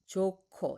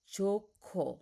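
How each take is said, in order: First: The second consonant is a strongly aspirated k. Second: The second consonant is a strongly aspirated k.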